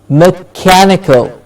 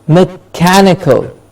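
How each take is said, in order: The two takes are said the same way.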